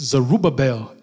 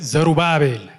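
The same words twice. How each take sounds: First: The name is said with American stress placement. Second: The name is said with the stress moved backward. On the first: "In America, I don't say Zerubbabel because they have to ask me again and again" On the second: "in Ethiopia, it's Zerubbabel. Accent on the syllable, backward"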